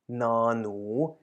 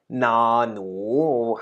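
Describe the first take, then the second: First: It is said softly and gently. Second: It is said loudly and forcefully. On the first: "I'm usually speaking rather softly, so I, I rather go na-nu" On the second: "whereas you could also say na-nu"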